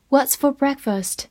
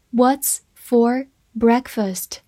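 First: Said in the usual way. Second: Slow and clear, word by word; slow reading. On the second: Shown as a demonstration. Teacher reads the sentence slowly to students, slow and clear. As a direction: read it slowly for the class. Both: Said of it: "好，来看一个句子".

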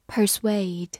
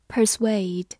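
Both takes have the same delivery.

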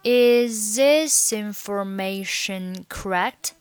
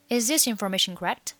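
First: Slow, drawn-out linked question; slow demo. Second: Quick, run-together question; fast demo. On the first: Teacher modelling the linked question for learners, slowly. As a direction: stretch each syllable, keeping the words joined. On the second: Teacher repeating the linked question at speed, fast. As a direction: rattle it off in one linked breath. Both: Shown as a demonstration.

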